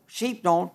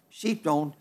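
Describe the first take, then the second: First: Said in the usual way. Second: Softer, lower repeat; a quiet afterthought echo. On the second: Shown as a demonstration. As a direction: let it drop away to a hush. Repeats the line for effect.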